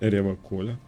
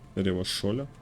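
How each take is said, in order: First: The final syllable starts with a hard k sound. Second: The final syllable starts with a soft sh sound. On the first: "He pronounces Revachol with a hard K" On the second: "unlike other people"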